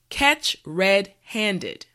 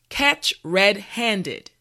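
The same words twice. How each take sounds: Both takes have the same delivery.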